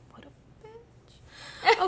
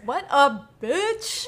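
First: The words are said at a soft volume. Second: The words are said at a loud volume. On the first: "I don't think that registered on the mic" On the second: "Maybe you should say it louder"

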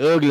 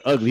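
First: The word is said with a Southern twang. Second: The word is said in a plain accent. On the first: "He put a little southern twang on it" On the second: "he don't say the word ugly"

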